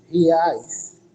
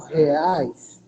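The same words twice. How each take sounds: First: "reais" opening on an i sound, ri-ais. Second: Said in the usual way. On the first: Shown as a demonstration. Teacher showing students the changed vowel, "reais" said ri-ais. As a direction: say "reais" with i in place of e. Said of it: "fala somente com o som do i". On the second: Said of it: "Pra falar o reais".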